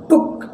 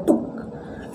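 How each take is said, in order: First: टुक said as the mistaken version; wrong reading. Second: टुक whispered with a short u, like took; whispered right reading. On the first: Teacher to students, showing the reading to avoid. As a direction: model the wrong टुक first. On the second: Teacher to students, whispering the right reading. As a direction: breathe the correct टुक softly. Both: Shown as a demonstration. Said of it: "अब टुक नहीं पढ़ रहे".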